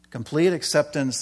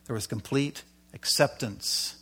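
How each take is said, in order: First: Complete punched a little louder with a falling close; stress on complete. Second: Said in the usual way. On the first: Shown as a demonstration. Preacher repeating the key phrase, stressing Complete. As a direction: lean hard on the word Complete, then let acceptance fall.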